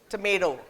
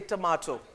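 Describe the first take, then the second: First: Tomato is said the American way. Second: Tomato is said the British way. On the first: "I never say tomato" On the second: "I was actually brought up in England, so ... I say tomato"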